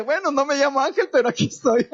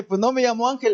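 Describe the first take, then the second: First: A higher, laughing retold reply. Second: Said in the usual way. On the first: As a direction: chuckle through the punchline. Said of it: "Le dije". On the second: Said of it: "y le dije".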